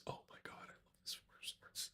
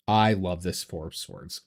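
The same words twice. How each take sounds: First: Breathless excited whisper. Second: Said in the usual way. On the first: Real, not acted. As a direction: whisper it, awestruck. Gushing over a card.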